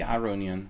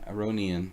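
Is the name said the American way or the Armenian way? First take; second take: Armenian; American. First: The name is said the Armenian way. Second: The name is said the American way. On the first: The speaker calls it right. "I know it's supposed to be Aronian" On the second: The speaker calls it wrong. "I'm American, and there's this very deep need for me to pronounce things incorrectly"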